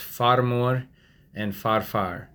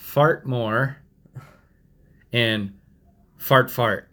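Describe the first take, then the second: First: Each 'far' is said without a 't' sound. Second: Each 'far' is said with a 't', like 'fart'. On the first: The speaker calls it right. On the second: The speaker calls it wrong.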